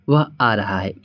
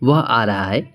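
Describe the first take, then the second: The two takes are said the same way.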